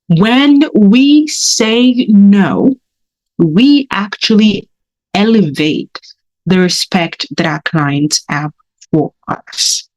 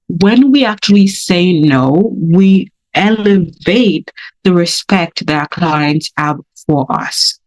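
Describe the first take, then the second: First: It is said slowly. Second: It is said fast.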